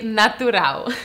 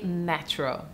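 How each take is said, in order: First: It is said with Portuguese pronunciation. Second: It is said with English pronunciation.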